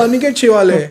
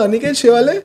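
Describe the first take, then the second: First: Aniket Shewale high, falling at the end; imitated reply, Aniket Shewale dropping to a close; stated answer. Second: Aniket Shewale high, rising at the end; imitated query, Aniket Shewale lifting sharply; surprised echo question. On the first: Retold friend gives the name.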